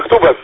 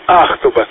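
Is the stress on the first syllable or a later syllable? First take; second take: later; first. First: The stress falls on a later syllable. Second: The stress falls on the first syllable. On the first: The speaker calls it wrong. "я тоже так просто назвал" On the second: The speaker calls it right. "у нас ударение на первую буковку"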